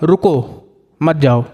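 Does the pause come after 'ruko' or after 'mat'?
after ruko. There is a pause after the first word. Stay here; do not go. "मतलब कि अभी रुको, जाने की ज़रूरत नहीं है"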